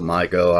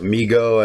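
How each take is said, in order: First: The first vowel sounds like 'eye'. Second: The first vowel sounds like 'ee'. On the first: Some other people say it this way. "I think some people pronounce it Mygo" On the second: This is the speaker's own pronunciation. "I pronounce it Migo"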